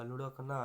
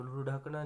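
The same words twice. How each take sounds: First: लुढ़कना with flapped ढ़; correct pronunciation. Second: लुढ़कना with hard, unflapped ढ; wrong pronunciation. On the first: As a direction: say लुढ़कना as "lurhakna", tongue flapped. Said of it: "आएगा". (लुढ़कना में बिंदी वाला ढ़ बोलें) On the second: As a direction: say लुढ़कना as "ludhakna", hard stop. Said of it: "नहीं आएगा". (लुढ़कना में बिना बिंदी का ढ बोलें) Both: Shown as a demonstration.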